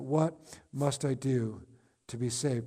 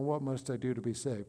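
First: It is said in a desperate, urgent tone. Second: It is said in a calm, casual tone.

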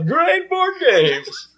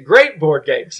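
First: It is said in a funny put-on voice. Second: It is said in his natural voice.

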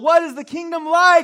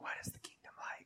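First: It is yelled at full volume. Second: It is said quietly and low.

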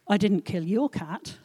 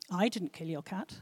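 First: The stress falls on 'your'. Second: The stress falls on 'I'.

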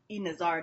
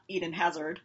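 First: The name is given a Belgian pronunciation. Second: The name is given an English pronunciation. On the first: The speaker calls it right. "who's a Belgian player, which is why his name is Eden Hazard" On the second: The speaker calls it wrong. "and not Eden Hazard"

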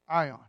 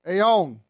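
First: The word sounds like 'ion'. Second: The word sounds like 'aeon'. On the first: The speaker calls it right. "Ion's how you say" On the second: The speaker calls it wrong. "I was saying aeon. Forgive me"

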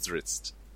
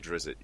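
First: The z runs straight into the t. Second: An extra vowel sounds between the z and t. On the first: The speaker calls it right. "it's just Drizzt" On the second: The speaker calls it wrong. "As long as you don't say Drizzt, you're all right"

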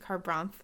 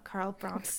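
First: The name ends with a 'branth' sound. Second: The name ends with a 'Bronx' sound. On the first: The speaker calls it right. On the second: The speaker calls it wrong.

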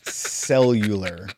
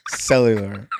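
First: It is said slowly and carefully. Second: It is said fast, stumbling.

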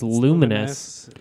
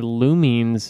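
First: It sounds like the word 'luminous'. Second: It does not sound like 'luminous'. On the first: The speaker calls it right. "I guess it's luminous" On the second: The speaker calls it wrong. "I always used to say lumines"

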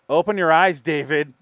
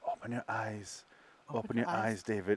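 First: It is said with a Midwestern American accent. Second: It is said without a Midwestern American accent. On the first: "like with that Midwestern accent" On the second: "and then it turns into her"

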